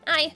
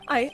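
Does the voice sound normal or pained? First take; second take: pained; normal. First: It is said in a pained, hurting voice. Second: It is said in an ordinary, unpained voice. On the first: The speaker calls it wrong. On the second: The speaker calls it right.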